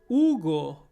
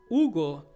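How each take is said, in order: The two takes are said the same way.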